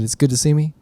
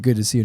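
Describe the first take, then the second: First: "me" lifted as a pointed question; retold challenge, leaning on "me"; questioning echo. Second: Said in the usual way. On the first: Greeting thrown back as challenge. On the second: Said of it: "I came to Jay and I said".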